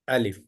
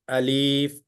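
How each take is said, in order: First: The vowel is kept short. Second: The vowel is drawn out long. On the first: The speaker calls it right. "So this has no prolongation" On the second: The speaker calls it wrong. "prolongation in the name itself. Alif. This is a mistake"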